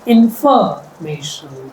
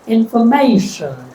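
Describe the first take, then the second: First: The stress is on the second syllable. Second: The stress is on the third syllable. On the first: "If I stress the second syllable" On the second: "If I stress the third"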